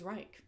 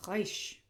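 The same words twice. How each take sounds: First: Said in the usual way. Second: Reich said as "raish", like the Third Reich; German Reich. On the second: Shown as a demonstration. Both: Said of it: "as in the third".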